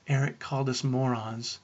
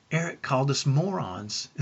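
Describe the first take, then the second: First: Put-on understated, subdued child's complaint; mildly tearful imitation. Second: Put-on lightly amused child's report; mildly gleeful imitation. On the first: Seven-year-old twins tattling to mom, mildly tearful. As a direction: report it as if through tears, lightly. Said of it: "Their reply through tears". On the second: Grinning twins telling dad days later, mildly gleeful. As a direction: say it as a giggly in-joke, understated. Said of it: "as they smiled ear, from ear to ear".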